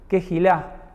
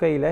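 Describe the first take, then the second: First: A throaty J sound in the middle, stress at end. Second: No throaty J sound in the middle. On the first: The speaker calls it right. "una especie de J en el medio, ... una especie de acento al final" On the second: The speaker calls it wrong. "no es tan, tan así como Keila"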